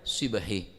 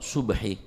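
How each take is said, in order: First: The first vowel is a front i sound. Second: The first vowel is a rounded u sound. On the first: "Wa huqiya kasriha, beda saya baca" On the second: "bi dhammi shad"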